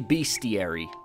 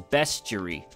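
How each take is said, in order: First: The first syllable sounds like 'beast'. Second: The first syllable sounds like 'best'. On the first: "I used to say bestiary, because it's like beasts" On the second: "it's not bestiary, it's bestiary. And it's not spelled with an A"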